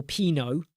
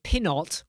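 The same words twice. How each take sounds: First: "Pinot" as PEE-no; long ee and no T in "Pinot"; silent-T Pinot. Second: "Pinot" as PIN-ot; short i and a final T in "Pinot"; sounded-T Pinot. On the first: Streamer offering "Pinot" as PEE-no, silent T. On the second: Streamer offering "Pinot" as PIN-ot, sounded T. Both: Shown as a demonstration. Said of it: "How do you pronounce it?".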